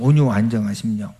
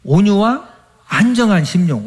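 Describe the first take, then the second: First: 온유와 stressed, softer, lower and fast; 온유와 안정한 심령 said lower and fast, 온유와 stressed; quick soft repeat. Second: 안정한 stressed, falling tune; 온유와 안정한 심령 with 안정한 leaned on; emphatic answer. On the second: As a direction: lean on 안정한 and let it fall. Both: Shown as a demonstration. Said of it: "뭐로 단장해야 된다?".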